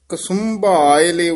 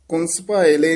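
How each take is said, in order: First: The 'u' vowel follows the second consonant, 'kasum'. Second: The 'u' vowel follows the first consonant, 'kuns'. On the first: The speaker calls it right. "ਸੱਸੇ ਦੇ ਔਂਕੜ ਲਾ ਕੇ, ਕੱਕੇ ਦੇ ਔਂਕੜ ਨਹੀਂ ਲਾਉਣਾ" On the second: The speaker calls it wrong. "ਕੁੰਸ ਭਾਏ ਲੈ ਨਹੀਂ ਬੋਲਣਾ"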